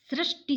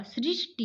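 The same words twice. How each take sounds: First: सृष्टि said as srashti, with a vowel; wrong सृष्टि. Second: सृष्टि said as srishti; correct way. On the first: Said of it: "सृष्टि शब्द नहीं होगा". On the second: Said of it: "सृष्टि होगा". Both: Shown as a demonstration.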